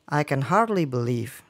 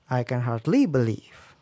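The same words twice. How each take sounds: First: The pitch rises on the syllable hard. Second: The pitch rises on the syllable ly.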